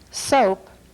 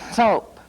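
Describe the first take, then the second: First: The consonant is made without nasal snorting. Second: The consonant is made with audible nasal snorting.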